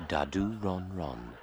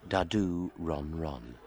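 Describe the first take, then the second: Both takes have the same delivery.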